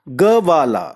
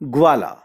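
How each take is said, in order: First: A short vowel separates g from v. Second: The g joins straight onto v, no vowel. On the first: "अगर हम इसको पूरा करें ग को, तो ध्वनि बनेगी ग वाला" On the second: "ग्वाला में आधा ग है"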